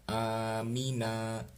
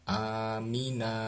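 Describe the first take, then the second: Both takes have the same delivery.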